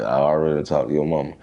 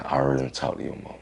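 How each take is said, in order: First: Said in the usual way. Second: Quick aside. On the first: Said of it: "She was like". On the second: Retold or imitated. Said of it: "She said".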